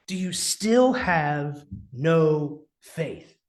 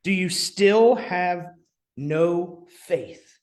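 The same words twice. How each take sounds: First: "Do you still have no faith?" drawn out slowly, each word weighed; slow stern rebuke. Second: Said in the usual way. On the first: Acted. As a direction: lean on the disappointment, slowly. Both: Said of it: "harsher rebuke".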